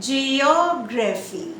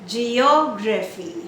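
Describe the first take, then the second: The two takes are said the same way.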